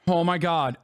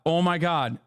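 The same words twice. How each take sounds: The two takes are said the same way.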